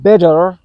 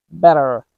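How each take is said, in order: First: Bitter said as "bedder" with a heavy, full D; strong D. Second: Better with a light, quick D for the T; fast D sound. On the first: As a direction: hit a loud, strong D in bitter. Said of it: "not like a strong D sound". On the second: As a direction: flick the tongue for the T in better. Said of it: "a fast D sound like". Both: Shown as a demonstration.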